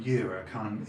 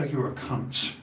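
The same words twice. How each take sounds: First: "cunt" with the final t swallowed; no resonance. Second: "cunt" with a hard, released t at the end; dropped-in t. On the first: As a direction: say "cunt" softened, leaving the t unreleased. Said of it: "it hasn't got that resonance". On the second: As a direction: hit "cunt" and drop a crisp ts on it. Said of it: "and you drop the ts". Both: Shown as a demonstration.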